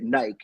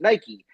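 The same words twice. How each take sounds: First: It is said with a British pronunciation. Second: It is said with an American pronunciation. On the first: "but they say it Nike" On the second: "and I would say Nike"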